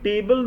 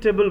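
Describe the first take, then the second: First: The word is said fully, like the word table. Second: The word is said softly with a reduced vowel. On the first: The speaker calls it wrong. "ना बोल करके" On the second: The speaker calls it right. "बोलना है"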